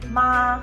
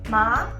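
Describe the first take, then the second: First: It is said with the first tone. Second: It is said with the second, rising tone. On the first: It means mom. "if you say with tone number one" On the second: It means hemp plant. "Tone number two, like it goes up slightly"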